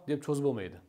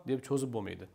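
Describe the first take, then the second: No difference in how they are said.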